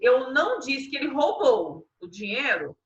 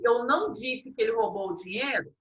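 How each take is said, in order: First: The word roubou is stressed. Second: The word dinheiro is stressed.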